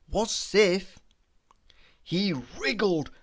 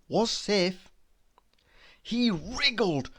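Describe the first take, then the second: No difference in how they are said.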